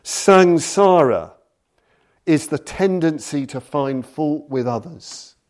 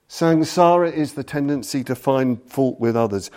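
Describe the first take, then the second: First: Solemn recitation. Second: Said in the usual way. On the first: Shown as a demonstration. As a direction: declaim the opening line of a sacred song. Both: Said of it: "It begins with the incredible lines".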